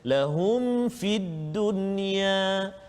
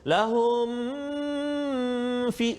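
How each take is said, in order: First: The m is clear with no nasal hum. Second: The m is held with a nasal hum. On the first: The speaker calls it right. "kita kena jelaskan bacaan kita" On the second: The speaker calls it wrong. "kita tak boleh dengung kat situ, ... salah"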